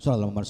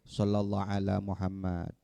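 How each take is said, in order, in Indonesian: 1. Frasa itu diucapkan cepat dan tergesa-gesa. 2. Frasa itu diucapkan pelan dan hati-hati. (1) "Itu terlalu terburu-buru" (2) "dengan cara tidak terburu-buru. Baca sholawatnya yang benar"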